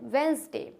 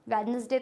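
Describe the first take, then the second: First: The d in the word is silent. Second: The d in the word is pronounced. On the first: The speaker calls it right. "डी is silent" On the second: The speaker calls it wrong. "वेडनेसडे तो नहीं होता है"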